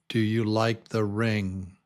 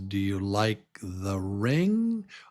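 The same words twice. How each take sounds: First: The voice does not rise at the end. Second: The voice rises sharply at the end.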